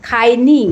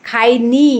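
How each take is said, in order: No difference in how they are said.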